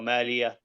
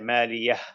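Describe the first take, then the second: First: The final h breath is not heard. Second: The final h is breathed out clearly. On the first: The speaker calls it wrong. "it sounds like there is no ha" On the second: The speaker calls it right. "let an extra air out"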